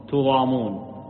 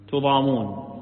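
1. الحركة الأولى ضمة، والميم مخفّفة. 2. الحركة الأولى ضمة، والميم مخفّفة.

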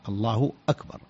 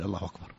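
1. تبدأ "أكبر" بهمزة واضحة. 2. تبدأ "أكبر" بصوت الواو. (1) "وأكبر الهمزة مقطوعة، همزة قطع" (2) "فلا يقول الله أكبر"

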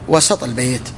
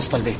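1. يتبع صوت السين صوت الفتحة. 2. لا يوجد صوت علة بعد صوت السين. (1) "فتكون بالفتح" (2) "ما تقول وسط البيت"

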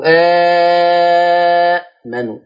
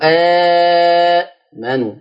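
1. يُمدّ المدّ الطويل الأول ست حركات. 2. يُمدّ المدّ الطويل الأول أربع حركات. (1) "أو ستة" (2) "واربعة"

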